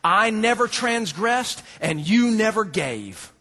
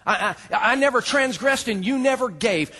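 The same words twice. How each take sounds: First: Slow, leaning on both "never" words; "I never transgressed and you never gave" drawn out, both "never" pressed; stress on never. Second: High, loud, stammered self-defence; a stuttering, wounded complaint raised high; indignant outburst. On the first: Shown as a demonstration. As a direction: hit "never" in each half. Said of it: "two key phrases". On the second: Acted. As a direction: blurt it as the offended son. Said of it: "You hear his heart".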